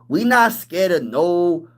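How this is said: It is said in an imitated, put-on voice.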